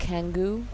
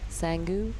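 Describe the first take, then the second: First: The name begins with a k sound. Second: The name begins with an s sound.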